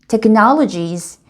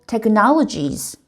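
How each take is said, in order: Both takes have the same delivery.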